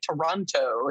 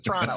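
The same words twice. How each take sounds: First: The word is said with three full syllables. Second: The word is squeezed into two syllables. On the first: The speaker calls it wrong. "He always laughs at people that say Toronto" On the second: The speaker calls it right. "it's Toronto, just Toronto. It's like two syllables"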